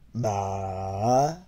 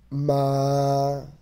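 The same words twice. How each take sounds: First: The syllable is said with the third tone. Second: The syllable is said with the first tone.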